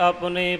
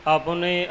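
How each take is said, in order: No difference in how they are said.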